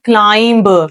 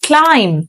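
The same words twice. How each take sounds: First: The final b sound is pronounced. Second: The final b sound is silent. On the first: The speaker calls it wrong. "बहुत सारे लोग इसको पढ़ते हैं climb" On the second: The speaker calls it right. "the actual word is climb. B जो है यहाँ पे silent है"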